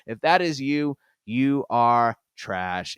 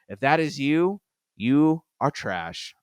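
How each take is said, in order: First: It is said in a bold, confident tone. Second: It is said in a hesitant, apologetic tone.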